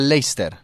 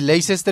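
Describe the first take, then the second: First: The name is said in its shortened form. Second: The name is read out as it is spelled. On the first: The speaker calls it right. "y se pronuncia Leicester" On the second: The speaker calls it wrong. "Es que se escribió así"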